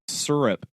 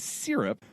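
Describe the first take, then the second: First: The first syllable sounds like 'sir'. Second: The first syllable sounds like 'sear'. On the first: The speaker calls it wrong. "like it's an S U R" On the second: The speaker calls it right. "it's a sear. You sear it S Y R"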